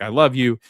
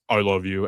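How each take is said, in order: First: Said in the usual way. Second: Weird voice. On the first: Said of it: "where Gabby's like". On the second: Retold or imitated. Boyfriend answers girlfriend's love, slightly weird gruff voice. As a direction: lightly put on a gruff, manly tone. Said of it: "in a really weird voice".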